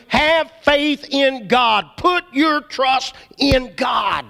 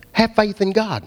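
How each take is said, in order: First: Slow and pressed, each word weighed; emphatic. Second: Said in the usual way. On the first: Shown as a demonstration. Preacher urging congregation, slow emphatic insistence. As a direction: drive have faith in God home slowly.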